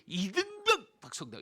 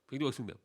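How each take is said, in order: First: It is shouted loudly and forcefully. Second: It is said weakly and without force.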